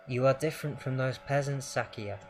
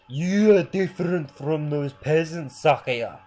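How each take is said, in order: First: It is said in the speaker's ordinary voice. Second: It is said in a put-on fatherly voice.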